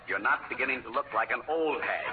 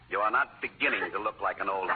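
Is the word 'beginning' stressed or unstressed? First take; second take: unstressed; stressed. First: The word 'beginning' carries no special stress. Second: The word 'beginning' carries strong stress.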